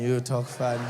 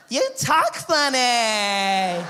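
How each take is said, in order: First: Low, unimpressed comeback; low retort. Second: Put-on high, loud, very slow surfer-girl drawl; mock a ditzy beach girl, stretching every word; California babe. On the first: Retold or imitated. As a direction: throw it back in a low voice. His low retort to the girl. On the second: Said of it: "California babe".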